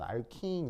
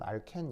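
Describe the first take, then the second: First: The second vowel is a long ee sound. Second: The second vowel is a short eh sound. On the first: It follows the English-style pronunciation. "영어식 발음입니다 ... 알킨 이렇게 발음하시면 되고요" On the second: It follows the older Japanese-era pronunciation. "일제시대의 발음 ... 알켄 이렇게 발음하시면 됩니다"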